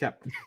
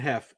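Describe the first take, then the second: First: The name ends with a p sound. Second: The name ends with an f sound. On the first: The speaker calls it right. "it's Hep" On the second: The speaker calls it wrong. "is not Hef"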